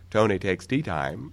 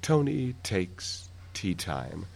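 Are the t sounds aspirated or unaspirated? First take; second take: unaspirated; aspirated. First: The t sounds have little puff of air. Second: The t sounds have a clear puff of air. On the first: "and not aspirate very much" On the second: "Probably we're going to have a little puff of air, a little aspiration there"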